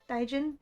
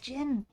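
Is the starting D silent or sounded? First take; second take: sounded; silent. First: The word begins with a D sound. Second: The word begins with a J sound. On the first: The speaker calls it wrong. "But like with the D" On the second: The speaker calls it right. "The D is silent? Oh, it's just Jin"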